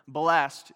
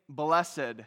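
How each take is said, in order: First: The word is said as one syllable. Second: The word is said as two syllables. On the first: "when you see this word" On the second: "We're the only people still pronouncing the ED on the end"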